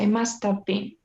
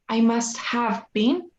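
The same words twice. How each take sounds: First: The h sound in have is dropped. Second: The h sound in have is pronounced. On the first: The speaker calls it right. "You kind of leave that part ... Like you had no H in there" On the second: The speaker calls it wrong. "you don't say"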